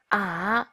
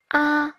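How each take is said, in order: First: The pitch dips low, then rises. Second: The pitch stays high and level. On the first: "thanh 3" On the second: "thanh 1"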